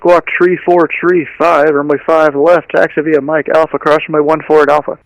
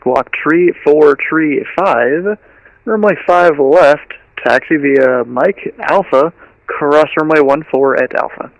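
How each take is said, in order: First: It is said fast. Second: It is said slowly.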